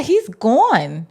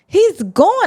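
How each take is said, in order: First: Said in the usual way. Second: Excited. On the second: Retold or imitated. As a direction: yelp it out in panic. Reacting as the dragon appears.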